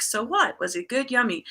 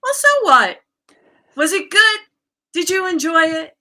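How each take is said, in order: First: Soothing self-talk. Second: High, louder imitation of a coach; coach's voice. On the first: Retold or imitated. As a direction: reassure yourself lightly, close to your usual voice. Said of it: "these new soothing thoughts". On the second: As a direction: brush off the guilt in her high, carefree voice. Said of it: "I started hearing her voice saying".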